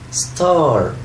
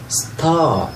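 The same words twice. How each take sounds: First: The final r is pronounced, American style. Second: The final r is dropped, British style.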